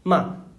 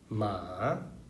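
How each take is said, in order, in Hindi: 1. इस अक्षर में चौथा स्वर है। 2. इस अक्षर में तीसरा स्वर है। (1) "फोर्थ" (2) "थर्ड"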